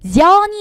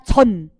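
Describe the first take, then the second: First: The syllable has a y-glide before the vowel. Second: The syllable has no glide before the vowel. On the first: The speaker calls it wrong. "아니라" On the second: The speaker calls it right. "즈츠츠는 반모음이랑 올 수 없다"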